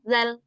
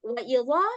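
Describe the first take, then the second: First: The z-like consonant is light and plain. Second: The z-like consonant is heavy and thick. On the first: The speaker calls it right. "Tapi kita bacanya zal, biasa" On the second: The speaker calls it wrong. "jadinya huruf za. Dia punya sifat isti'la"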